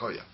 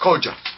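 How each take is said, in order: First: The second syllable starts with a 'y' sound. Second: The second syllable starts with a 'j' sound. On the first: The speaker calls it right. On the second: The speaker calls it wrong.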